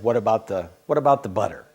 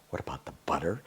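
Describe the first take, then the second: First: Said in the usual way. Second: Softer, lower repeat of "What about the butter?" muttered to himself; puzzled muttering. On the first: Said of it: "let's just say he said". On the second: Retold or imitated. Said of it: "I was kinda going".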